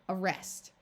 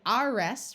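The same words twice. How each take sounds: First: The first vowel is a weak schwa. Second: The first vowel is a full short 'a'. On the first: "muffled schwa sound of uh" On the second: "we could say arrest with a short A sound"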